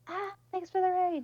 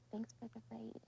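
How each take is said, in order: First: It is said loudly, almost screamed. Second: It is said quietly, almost hushed.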